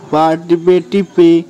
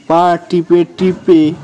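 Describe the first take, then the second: No difference in how they are said.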